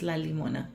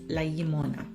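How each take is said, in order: First: The noun starts with a plain L sound. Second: The noun starts with a palatal double-L sound. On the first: The speaker calls it wrong. "I think it's going to be just la limona" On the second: The speaker calls it right. "it does use the elge sound, the double L"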